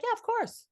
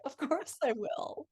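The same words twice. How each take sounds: First: Curt, dutiful yes; flat reply. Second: Higher, sweet and slow; sweet reply. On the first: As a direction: answer without any warmth. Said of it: "And be like". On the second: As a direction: melt as you answer him. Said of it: "And I'd be like". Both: Retold or imitated.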